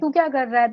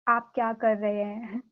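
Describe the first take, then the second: First: It is said fast and harshly, Agra style. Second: It is said politely and softly, Kanpur style.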